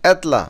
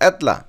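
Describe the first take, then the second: First: It is said in a calm, neutral voice. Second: It is said in an angry, agitated voice.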